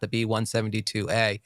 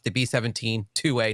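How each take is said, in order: First: The number is read as one seventy-two. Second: The number is read as seventeen two. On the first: The speaker calls it wrong. "not the B one seventy-two A" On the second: The speaker calls it right. "as I was recently told it's pronounced. It's the B seventeen two A"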